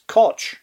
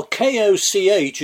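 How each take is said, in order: First: Koch said as English "kotch"; Koch with an English tch ending; anglicised pronunciation. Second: Koch with the German guttural ch at the end; Koch as in German, with a back-of-the-throat fricative; German pronunciation. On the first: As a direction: anglicise Koch so it ends like "watch". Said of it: "just to anglicise the thing as Koch". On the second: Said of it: "pronounced Koch in German". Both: Shown as a demonstration.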